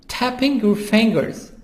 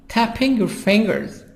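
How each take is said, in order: No difference in how they are said.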